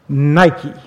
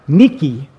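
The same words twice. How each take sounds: First: It is said the usual English way. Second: It is said the original Greek way. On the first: "or as we like to pronounce it" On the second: "Many readers might recognize the word Nike"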